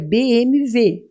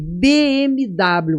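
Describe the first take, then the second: First: The letters are named with German sounds, W like V. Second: The letters are named with Portuguese sounds. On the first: "em alemão é B M W, que o W tem som de V" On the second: "você fala em português"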